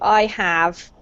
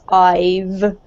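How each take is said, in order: First: It is said as two full words. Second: It is said as one contracted word. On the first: The speaker calls it wrong. "rather than making it into I have" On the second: The speaker calls it right. "we do pronounce them as I've"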